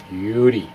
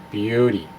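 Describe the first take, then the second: No difference in how they are said.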